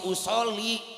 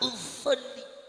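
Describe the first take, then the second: First: The word is said plainly without extra emphasis. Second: The word is drawn out with heavy exaggerated emphasis. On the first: The reciter speaks normally without showing off. The speaker calls it right. "Lebih biasa aja mam" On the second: The reciter is showing off newly learned recitation rules. The speaker calls it wrong. "imam lebay ini"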